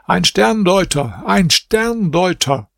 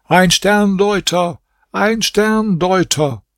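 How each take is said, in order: First: High, slow, drawn-out public cry; a stretched, raised street-crier call; loud call. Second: High, slow, drawn-out cry; a stretched, raised third call for attention; calling out again. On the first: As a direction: call it out across the palace square. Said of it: "rief hier mit lauter Stimme". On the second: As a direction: cry it out insistently to the crowd. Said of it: "rief zum dritten Mal". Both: A narrator's reading.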